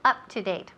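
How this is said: It is said firmly and confidently. The speaker calls it right. "be confident and say up to date"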